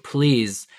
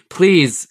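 First: Said in the usual way. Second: Louder, higher begging please; raspy pleading Hound. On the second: A narrator's reading. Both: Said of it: "Sandor Clegane rasped".

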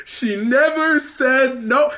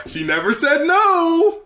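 First: Slow, high, stretched disbelief on never; mocking repeat. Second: Even higher, slow, rising on "no"; mocking repeat. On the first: Repeating the statement's line, slow high mocking disbelief. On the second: Echoing the statement again, higher incredulous mockery. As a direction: stretch "no" up in disbelief. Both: Shown as a demonstration. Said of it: "She never said no to what we chose to do together".

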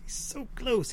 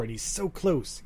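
First: Much higher and softer, imitating the coder; breathy mock of the desperate coder's line. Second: Said in the usual way. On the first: Mocking the movie's coder about his nearly finished AI, soft high voice. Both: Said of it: "he says".

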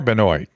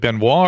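First: Benoit said as "ben-OYT"; spelling pronunciation. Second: Benoit said as "ben-WAH"; French-style pronunciation. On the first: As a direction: say Benoit with an "oy" and a sounded t. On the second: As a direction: say Benoit with a silent t, ending in "wah". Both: Shown as a demonstration. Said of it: "I think I mispronounced your name".

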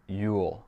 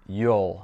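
First: "you'll" said like "yule"; "you'll" with a full oo vowel. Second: "you'll" said like "yol"; "you'll" with a long o vowel. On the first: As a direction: rhyme "you'll" with "fool". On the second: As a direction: rhyme "you'll" with "hole". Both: Shown as a demonstration. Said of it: "différemment chaque fois que".

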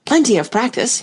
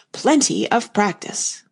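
First: Insistent, lifted repeating; emphatic repeating. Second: Slow, settled repetition; slow repeating. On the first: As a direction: press the advice eagerly. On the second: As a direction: say it again slowly. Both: Acted. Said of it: "he went on repeating".

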